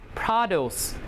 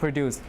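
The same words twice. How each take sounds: First: The stress is on the first syllable. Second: The stress is on the second syllable. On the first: It means vegetables or farm products. "The noun will have the stress on the first syllable" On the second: It means to make. "if it's a verb, the stress will shift to the second syllable"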